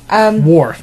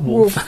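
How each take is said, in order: First: The name is said with an r sound. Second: The name is said with an l sound. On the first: The speaker calls it right. "Worf, not Wolf" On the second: The speaker calls it wrong. "not Wolf"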